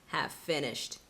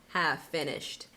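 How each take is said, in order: Both takes have the same delivery.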